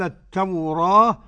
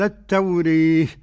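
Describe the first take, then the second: First: The long vowel is an open a sound. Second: The long vowel leans fully toward an e sound. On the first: "الفتح والتقليل" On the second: "الإمالة الكبرى"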